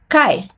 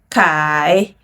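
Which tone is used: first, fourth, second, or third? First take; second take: fourth; third. First: The pitch falls sharply from high. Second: The pitch dips low, then rises.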